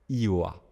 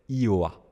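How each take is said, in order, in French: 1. Le prénom se dit en utilisant seulement ses voyelles. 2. Le prénom se dit en utilisant seulement ses voyelles.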